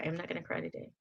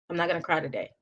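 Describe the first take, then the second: First: Much softer, fighting tears; whisper-quiet promise to herself not to cry; softly, near tears; holding back tears. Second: Said in the usual way. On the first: Real, not acted. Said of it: "I usually cry".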